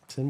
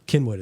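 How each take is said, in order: First: The name begins with an S sound. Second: The name begins with a K sound. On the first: This is how outsiders usually say it. The speaker calls it wrong. "that's usually what people go with" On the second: This is how locals say it. The speaker calls it right. "Kinwood is how you say it"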